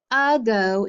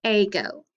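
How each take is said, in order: First: "ago" said with an opening uh, "uh-GO"; schwa. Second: "ago" said as AY-go; long A mispronunciation. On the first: Teacher showing the class how we say it, schwa "ago". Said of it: "We make the "uh" sound". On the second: Teacher contrasting the wrong reading for students, long-A "ago". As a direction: open "ago" with the name of the letter A. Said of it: "instead of". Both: Shown as a demonstration.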